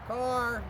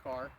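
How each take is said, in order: First: High, drawn-out yell of CAR; street-hockey car call. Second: Said in the usual way. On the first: Pretend. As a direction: holler it like a kid warning the game. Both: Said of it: "Like we're playing hockey in the street".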